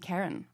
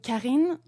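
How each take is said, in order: First: The name is said with English pronunciation. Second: The name is said with French pronunciation. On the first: "in English it would be" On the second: "in French"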